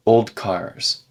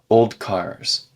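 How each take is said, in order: First: It is said carefully with a slight D sound. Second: The same.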